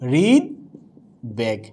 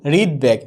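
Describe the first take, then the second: First: হৃদবেগ very slowly as "rid... beg"; syllable-by-syllable demo. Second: Said in the usual way. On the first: Shown as a demonstration. Teacher showing what must be said, slow syllable demo. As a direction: split হৃদবেগ with a long pause before the b. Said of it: "বলতে হচ্ছে কি". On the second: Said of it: "কি বলছি".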